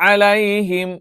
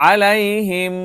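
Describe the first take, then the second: No difference in how they are said.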